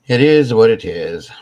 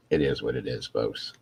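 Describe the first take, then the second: First: Loud, emphatic repeat; loud declaration. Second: Said in the usual way. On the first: Real, not acted. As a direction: belt it out, resigned. Repeats it, much louder.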